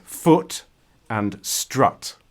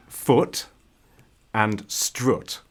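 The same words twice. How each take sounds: First: "foot" with a short oo, "strut" with an open uh; southern English strut, clearly split from the vowel of foot. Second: "foot" and "strut" with the same short oo vowel; northern strut as "stroot", same vowel as foot. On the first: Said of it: "someone from the south of England would say". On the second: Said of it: "I would say foot and strut". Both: Shown as a demonstration.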